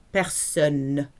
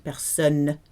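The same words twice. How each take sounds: First: Personne with a clearly sounded N at the end; clear final N. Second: Personne ending on a held, clear N; clear final N. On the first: Teacher modelling Personne for learners, clear final N. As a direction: ring out the N of Personne. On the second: Teacher repeats Personne for class, clear final N. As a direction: let the N of Personne sound fully. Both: Shown as a demonstration. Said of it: "With a clear N at the end".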